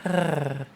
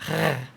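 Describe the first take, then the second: First: A purring, cat-like R sound. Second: A throaty French-style R sound. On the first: "the purring noise, which is like a R" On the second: "French R, which is like a R"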